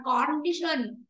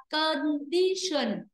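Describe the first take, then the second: First: "condition" with a full o in con; full first vowel. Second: "condition" with con reduced to a schwa; weak first vowel. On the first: Teacher shows class the error, "condition" with full o. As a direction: mispronounce "condition" as kon-DI-shun. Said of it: "Không phải là condition". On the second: Teacher models for class, "condition" with schwa in first syllable. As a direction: say "condition" as kuhn-DI-shun. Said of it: "chúng ta sẽ đọc là âm ơ". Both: Shown as a demonstration.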